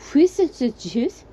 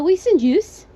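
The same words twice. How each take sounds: First: It is said slowly and clearly. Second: It is said at normal speed.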